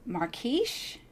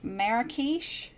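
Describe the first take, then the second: First: "Marrakesh" as two syllables, MAR-kish, rising; "Marrakesh" squeezed to MAR-kish like a question; unsure first try. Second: "Marrakesh" slowly in three syllables, MEH-ruh-kish, rising; drawn-out "Marrakesh", MEH-ruh-kish, still unsure; slower second try. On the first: Crafter guessing a sequin brand name, unsure two-syllable try. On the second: Crafter retrying the sequin name, slow unsure three-syllable try. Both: Real, not acted. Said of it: "I have no idea how to pronounce that".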